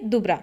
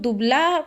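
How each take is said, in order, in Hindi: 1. बीच का व्यंजन r ध्वनि है। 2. बीच का व्यंजन l ध्वनि है।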